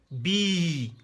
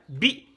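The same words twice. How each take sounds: First: "Bi" held long; sustained, even "Bi"; long vowel. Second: "Bi" said briefly; quick, short "Bi"; short vowel. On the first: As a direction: stretch the i in "Bi". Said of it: "C'est tiré". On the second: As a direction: cut the i of "Bi" short. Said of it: "les voyelles brèves". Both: Shown as a demonstration.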